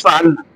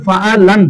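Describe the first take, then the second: First: ফাআলনা said short and easy, lam closed straight onto na; সহজ উচ্চারণ. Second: ফাআলান slow and drawn out, every syllable voweled separately; আলাদা করে উচ্চারণ. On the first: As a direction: say ফাআলনা softly, with no vowel on the lam. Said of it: "আর এটা কত সহজ". (ফাআলনা সহজে, লাম সাকিন করে) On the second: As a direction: say ফাআলান laboriously, each letter with its own vowel. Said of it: "কে রে বলতে হবে". (ফাআলান ধীরে টেনে, প্রতিটি হরফ আলাদা করে) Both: Shown as a demonstration.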